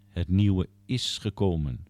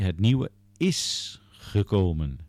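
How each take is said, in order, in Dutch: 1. Het woordje 'is' krijgt geen speciale klemtoon. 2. Het woordje 'is' krijgt een sterke klemtoon.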